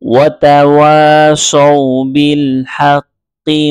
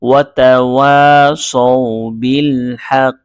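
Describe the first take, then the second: First: The last word carries a vowel into the next. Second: The last word ends clipped in a full stop. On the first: "মিলিয়ে পড়তে পারেন" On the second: "এখানে আমি থেমেছি"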